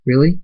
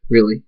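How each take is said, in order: First: "Really?" rising high at the end; questioning. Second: Said in the usual way. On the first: A narrator's reading. Zara asks the tree, "Really?" with rising tune. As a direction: ask "Really?" with a hopeful lift.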